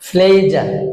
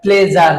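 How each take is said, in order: First: The first consonant is strongly aspirated. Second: The first consonant is unaspirated. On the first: The speaker calls it right. "পিটা যদি ফি sound হয়" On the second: The speaker calls it wrong. "প্লেজার আমরা বলছি"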